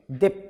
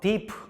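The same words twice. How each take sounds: First: The final p stops abruptly without release. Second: The final p is released with an audible burst. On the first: It sounds more polished. The speaker calls it right. "이렇게 딱 멈추는 거. 약간 이렇게 unreleased라고 발음을 해야 약간 세련돼 보이긴 하죠" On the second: It sounds unrefined. The speaker calls it wrong. "너무 이래버리면 조금 촌스러워 보이죠"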